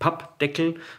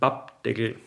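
First: The P sounds are hard and tense. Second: The P sounds are soft and lax. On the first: The speaker calls it wrong. "Also nicht Pappdeckel" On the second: The speaker calls it right. "diese harten Konsonanten wie jetzt P oder T prinzipiell ganz weich sprichst"

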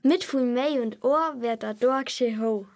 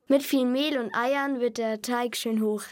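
First: It is said in Bavarian dialect. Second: It is said in standard German.

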